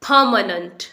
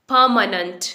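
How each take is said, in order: The two takes are said the same way.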